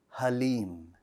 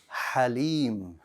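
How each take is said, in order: First: The first sound is a soft, breathy h. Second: The first sound is sharp, with forceful air. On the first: The speaker calls it wrong. "That's a H, it's a soft sound" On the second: The speaker calls it right. "instead of saying halim"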